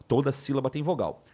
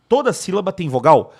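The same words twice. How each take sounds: First: Said in the usual way. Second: Louder questioning tune on "toda sílaba tem vogal"; puzzled student question. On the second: Acted. Student checking a rule with teacher, questioning.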